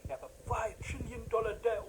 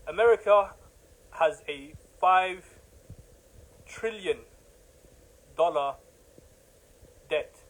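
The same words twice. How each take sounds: First: Said in the usual way. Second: Each word set apart with long pauses, slowly; slow, deliberate emphasis. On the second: Shown as a demonstration. Preacher hammering the debt figure home to listeners, slow and spaced. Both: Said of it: "just to reinforce the point".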